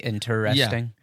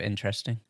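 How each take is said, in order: First: Every syllable of the word is clearly enunciated. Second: The word is said quickly with syllables reduced. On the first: "enunciate the interesting" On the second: "instead of interesting"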